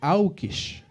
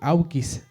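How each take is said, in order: First: The word ends with an sh sound. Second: The word ends with an s sound. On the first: This is how it is said in Marca. "se dice aukish" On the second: This form is not used in Marca. "en Marca también no se dice aukis"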